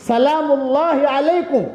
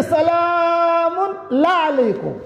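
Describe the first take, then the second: First: Said in the usual way. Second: سلام لا علیکم dragged out very slowly, the اللہ slurred into لا; stammered greeting. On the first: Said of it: "لیکن زبان کی لکنت کی وجہ سے کہہ نہیں پاتی تھی". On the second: Retold or imitated. Preacher imitates Umm Ayman's stammered, very slow greeting. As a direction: imitate a tongue that trips, سلام لا علیکم with the syllables blurred together. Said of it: "زبان کی لکنت کی وجہ سے".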